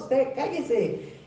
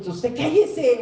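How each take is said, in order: First: "usted cállese" drawn out very slowly, word by word; slow stern order. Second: Higher, louder rebuke; stern order. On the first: Jesus slowly silencing the demons, drawn out. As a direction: spell out "usted cállese" slowly, each syllable weighed. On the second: Jesus ordering the demons to hush, higher and louder. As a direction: snap it like a command to be silent. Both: Acted.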